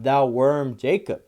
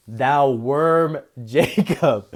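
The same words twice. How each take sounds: First: Said in the usual way. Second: Breaking into a laugh mid-verse; slow, amused reading that cracks up. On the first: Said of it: "read that without laughing". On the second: Real, not acted. Preacher amused by the Lord calling Jacob a worm, laughing. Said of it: "I can't even read that without laughing".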